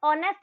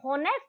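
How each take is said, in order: First: The word begins with a vowel, no h. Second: The word begins with an audible h sound. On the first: The speaker calls it right. "उसको ऑनेस्ट बोलते हैं, तो ओ sound अपने मुंह से निकलता है" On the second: The speaker calls it wrong. "अपन उसको होनेस्ट नहीं बोलते हैं"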